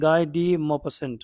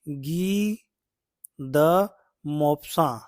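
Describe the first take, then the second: First: The name is read with English-style sounds. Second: The name is read with French-style sounds. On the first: The speaker calls it wrong. "लेकिन ऐसा नहीं पढ़ा जाएगा इसको" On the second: The speaker calls it right. "French जैसे इसका उच्चारण करना चाहिए"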